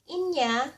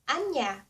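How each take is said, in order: First: The word begins with an 'ee' vowel. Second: The word begins with an 'ah' vowel. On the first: "Some say it or pronounce it as inya" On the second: "there's some that pronounce it as anya"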